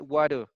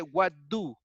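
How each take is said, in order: First: The two words are run together and reduced. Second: The two words are said fully and separately. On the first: The speaker calls it right. "It sounds like what do" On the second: The speaker calls it wrong. "We don't say what do"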